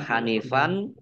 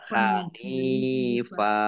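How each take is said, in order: First: The word ends with an n sound. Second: The word ends in a long a vowel. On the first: The speaker calls it wrong. "Tidak dibaca Hanifan" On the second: The speaker calls it right. "Dibacanya Hanifa"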